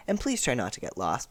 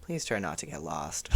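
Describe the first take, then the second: First: Lightly voiced kind teacher; a hint of a friendly teacher, easy and light; kindly teacher asking nicely; gentle teacher. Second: Flat, dry warning from a strict teacher; strict teacher sounding lower and quieter; stern teacher. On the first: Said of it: "'Cause if it was Mister Ajayi, he would have said". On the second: Retold or imitated. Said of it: "But Mister Farouk's like".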